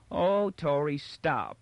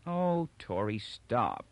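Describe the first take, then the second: First: High mocking echo, pushed harder; mocking singsong complaint; impatient mimicry. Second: Worn-down protest; weary. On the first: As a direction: mimic a weary plea with impatience. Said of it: "he mimicked impatiently". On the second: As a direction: sigh it out, tired of the nagging. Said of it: "she said wearily". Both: A narrator's reading.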